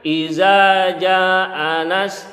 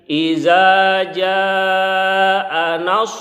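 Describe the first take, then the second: First: The long vowel is cut short. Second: The long vowel is held out long. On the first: The speaker calls it wrong. "Jangan bacanya ... salah" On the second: The speaker calls it right. "harus dipanjangkan ... seperti itu"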